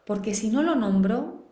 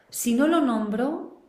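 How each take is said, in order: First: Said in the usual way. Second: "Si no lo nombro" slowed right down, higher and louder, rising on "lo"; slow emphatic repeat. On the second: Shown as a demonstration. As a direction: lean hard on "no lo nombro", rising at the end.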